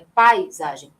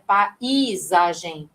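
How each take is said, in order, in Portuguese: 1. As vogais a e i são pronunciadas numa só sílaba. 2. As vogais a e i são separadas em duas sílabas. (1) "vai de uma vez só" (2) "não é paisagem"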